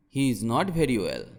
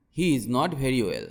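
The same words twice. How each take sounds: The two takes are said the same way.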